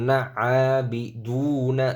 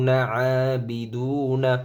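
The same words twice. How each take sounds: The two takes are said the same way.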